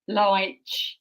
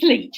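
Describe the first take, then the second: First: The vowel does not rhyme with bleach. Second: The vowel rhymes with bleach. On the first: The speaker calls it wrong. "the mangled pronunciations I've had" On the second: The speaker calls it right. "It rhymes with bleach"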